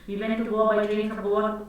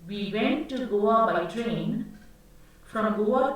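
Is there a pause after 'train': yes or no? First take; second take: no; yes. First: It runs on with no pause after train. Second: There is a short pause after train.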